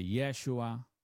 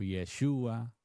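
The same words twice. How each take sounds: First: "Yeshua" stressed on the opening YE; first-syllable stress on Yeshua. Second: "Yeshua" with a strong SHU; second-syllable stress on Yeshua. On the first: Preacher tracing how the name has changed, "Yeshua" stressed on YE. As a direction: say "Yeshua" as YE-shu-a. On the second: Preacher offering a variant of the name, "Yeshua" stressed on SHU. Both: Shown as a demonstration. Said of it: "la pronunciación ha cambiado".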